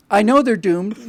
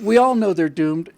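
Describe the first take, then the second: First: "know" lifted and held longer, rising end; stress on know. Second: "all" hit hard, the line slowed down; stress on all. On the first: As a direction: lean on "know", then let "they're doomed" follow. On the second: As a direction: punch "all", take the rest slowly. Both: Real, not acted. Repeated line, stress shifting.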